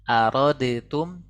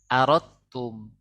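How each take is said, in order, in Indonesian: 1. Bunyi d yang terpisah terdengar sebelum t. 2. Huruf d dihilangkan dan t dibaca ganda. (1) "bukan arodetum" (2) "Langsung masuk ke huruf ta"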